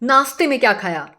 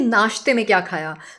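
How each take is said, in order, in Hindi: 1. 'nashte' को 's' ध्वनि से बोला जाता है। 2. 'nashte' को 'sh' ध्वनि से बोला जाता है। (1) "हम श नहीं हम स बोलते हैं" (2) "लेकिन असली में होता है"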